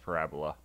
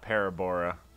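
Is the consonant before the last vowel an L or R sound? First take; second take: L; R. First: The consonant before the last vowel is an L. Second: The consonant before the last vowel is an R. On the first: The speaker calls it right. "that's clearly pronounced parabola" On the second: The speaker calls it wrong. "not parabora"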